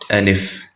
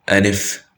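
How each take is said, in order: The two takes are said the same way.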